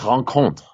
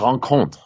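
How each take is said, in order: First: The surname is said with French sounds. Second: The surname is said with French sounds.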